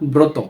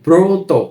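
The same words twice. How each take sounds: First: The first vowel is an open 'aw'. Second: The first vowel is a rounded 'oh'. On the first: The speaker calls it wrong. "আমরা কিন্তু পড়ছি না" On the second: The speaker calls it right. "মনে হচ্ছে যে এর সাথে ওকার রয়েছে"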